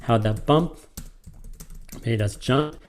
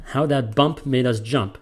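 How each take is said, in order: First: "How that bump made us jump" paused after "bump", rising on "jump"; adult reading to a kid. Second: "How that bump made us jump" with even beats on "bump" and "jump"; kid's reading. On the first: Teacher showing how an adult reads it to a kid. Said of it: "any adult would read it to a kid". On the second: Teacher showing how a kid reads the line. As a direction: read it as a kid would. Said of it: "that's how any kid would read that". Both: Shown as a demonstration.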